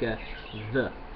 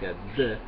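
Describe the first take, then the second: First: The d is soft, like th. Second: The d is a full, hard stop. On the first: The speaker calls it right. "It sounds like a the" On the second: The speaker calls it wrong. "It doesn't sound like adios, like a the"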